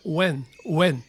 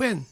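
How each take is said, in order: First: When with a clean English w glide. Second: When read flat like Japanese katakana; katakana-style When. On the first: Teacher modelling the right English when. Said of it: "どちらかというとwhenと聞こえます". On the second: Teacher showing the wrong katakana When. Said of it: "という言い方ではなく". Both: Shown as a demonstration.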